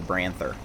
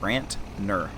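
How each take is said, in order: First: The word has a th sound, Branther. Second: The word has a t sound, Brantner. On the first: The speaker calls it wrong. "I've been saying that wrong for a while now" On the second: The speaker calls it right. "N instead of H"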